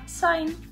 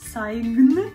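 First: No g sound is pronounced before the n. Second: A g sound is pronounced before the n. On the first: The speaker calls it right. "а sign" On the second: The speaker calls it wrong. "І не sign"

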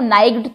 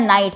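First: The word is said with a g sound. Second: The word is said without a g sound. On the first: The speaker calls it wrong. "नाइग्ड तो नहीं बोला" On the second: The speaker calls it right. "हमने बोला सीधा नाइट"

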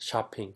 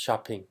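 Both takes have the same delivery.

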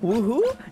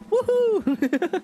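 First: It rises like a question. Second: It is said as an exclamation.

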